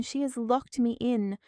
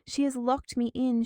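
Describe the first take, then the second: First: "has" punched loudest, shouted and falling; stress on has. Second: "She" punched higher and louder, rest shouted; stress on she. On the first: Trapped woman repeats the cry, stress on "has". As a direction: lean on "has" in "She has locked me in!". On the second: Trapped woman accuses her mother-in-law, stress on "She". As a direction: hit "She" hardest in "She has locked me in!". Repeated cry, stress differs. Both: Acted.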